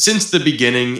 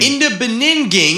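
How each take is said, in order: First: Said in the usual way. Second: Higher, louder silly mangled "Beninging"; garbled high voice. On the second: Shown as a demonstration. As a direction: trip over "Beninging" in a goofy voice. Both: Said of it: "in the Beninging".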